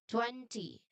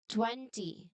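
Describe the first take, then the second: Both takes have the same delivery.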